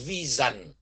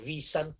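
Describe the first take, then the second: First: The s is voiced, like a z sound. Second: The s is not voiced like a z. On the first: This is the German way to say it. The speaker calls it right. "chữ S ở Đức đọc là dân, nên người ta đọc là Vision" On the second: This is not how Germans say it. The speaker calls it wrong. "chứ không bao giờ là Vision"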